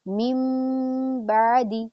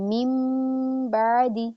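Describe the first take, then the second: First: The first word ends with a nasal m sound. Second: The same.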